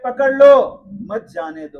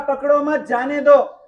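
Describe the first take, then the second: First: The pause comes after 'pakad lo'. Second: The pause comes after 'mat'.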